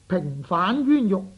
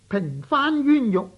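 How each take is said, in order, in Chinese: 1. 第二个音节读升调。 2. 第二个音节读平调。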